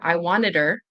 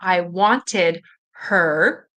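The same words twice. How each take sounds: First: The h in 'her' is dropped and linked. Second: The h in 'her' is clearly pronounced. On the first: "you might not hear the H here" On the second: "listening for I wanted her"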